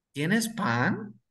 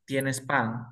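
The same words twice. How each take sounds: First: ¿Tienes pan? rising on pan; question tune. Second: ¿Tienes pan? with a falling end on pan; statement tune. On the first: Teacher to students, modelling a rising question. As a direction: lift pan up as a real question. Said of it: "y le estoy preguntando". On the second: Teacher to students, modelling a falling statement. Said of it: "le estoy diciendo a la señora que tiene pan". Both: Shown as a demonstration.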